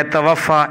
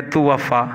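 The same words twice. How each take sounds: First: توفا said "ta-waffa"; careful "ta" at the start of توفا; short a first vowel. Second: توفا said "tu-waffa"; careful "tu" at the start of توفا; short u first vowel. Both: Shown as a demonstration. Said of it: "ایک ہے توفا".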